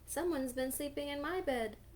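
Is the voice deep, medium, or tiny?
medium. The voice is medium in size and pitch. "in her middle-sized voice"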